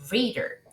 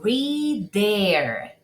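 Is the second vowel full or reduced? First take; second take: reduced; full. First: The second vowel is reduced almost away. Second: The second vowel is fully pronounced. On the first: The speaker calls it right. "sino reader" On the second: The speaker calls it wrong. "No digo reader"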